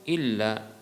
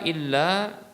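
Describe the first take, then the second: First: The final vowel is kept short. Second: The final vowel is held long. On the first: The speaker calls it wrong. "ataukah dengan satu harokat" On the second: The speaker calls it right. "dengan memanjangkan ya la ya dua harokat"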